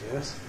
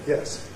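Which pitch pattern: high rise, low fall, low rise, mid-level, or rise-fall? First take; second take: low rise; low fall. First: The pitch rises from a low point. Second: The pitch falls low at the end. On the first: "Low rise" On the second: "Low fall"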